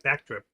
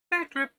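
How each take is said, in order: First: Said in the usual way. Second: Much higher mock squeak on Back drip; squeaky repeat. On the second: Répète le mot, voix aiguë.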